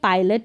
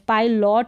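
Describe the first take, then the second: First: The second syllable has a short 'uh' vowel. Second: The second syllable has a full 'o' vowel. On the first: The speaker calls it right. "पायलट हो गया" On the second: The speaker calls it wrong. "पायलॉट नहीं बोलेंगे"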